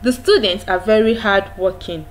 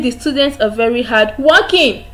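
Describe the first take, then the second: First: The pitch falls at the end. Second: The pitch rises at the end. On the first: The speaker calls it right. "It goes down. There is a drop in the pitch of your voice" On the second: The speaker calls it wrong. "You don't say"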